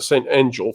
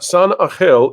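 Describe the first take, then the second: First: The name is said with English sounds. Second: The name is said with Spanish sounds.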